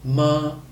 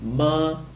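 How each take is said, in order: Both takes have the same delivery.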